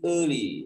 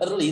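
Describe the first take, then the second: First: The word is said with strong emphasis. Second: The word is said with light emphasis. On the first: The speaker calls it right. "tapi ditekan sedikit early" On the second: The speaker calls it wrong. "jangan early"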